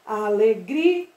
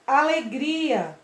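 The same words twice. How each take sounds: First: ALEGRIA broken into a-le-gri, pause, a; slow Alegri... a, split before the final vowel; final vowels separated. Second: ALEGRIA slowed, with a long gri; slow Alegria leaning on griii; stress on GRI. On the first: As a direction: say "Alegria" slowly, holding gri and detaching the last a. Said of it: "eu separo o i do a". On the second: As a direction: stretch the stressed "gri" in Alegria and fall onto the a. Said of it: "o gia é a sílaba mais forte". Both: Shown as a demonstration.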